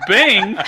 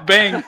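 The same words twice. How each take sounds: First: "bing" held long, high and loud; full car chime. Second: "bang" cut shorter than a full chime; a brief, high "bang" for the disappointing chime; feeble car chime. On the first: Driver showing how a full tank should sound, drawn-out chime. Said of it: "It's supposed to go". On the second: Driver showing what the car did instead, short chime. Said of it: "not just". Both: Shown as a demonstration.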